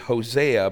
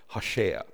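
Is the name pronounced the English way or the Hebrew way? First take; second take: English; Hebrew. First: The name is said with an English pronunciation. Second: The name is said with a Hebrew pronunciation. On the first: "the English transliteration is Hosea" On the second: "in Hebrew he would have been called Hosea"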